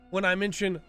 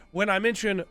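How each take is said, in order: Both takes have the same delivery.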